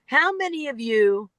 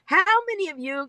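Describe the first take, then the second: First: Lightly voiced speaker's question opener; just read the stock opener "How many of you"; quoting a cliché opener. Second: "How many of you" much higher and faster, mocking; mocking cliché opener. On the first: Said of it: "start a speech with". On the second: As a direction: parody the tired opener "How many of you" she is sick of hearing. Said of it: "if I hear anybody else start a speech with a question".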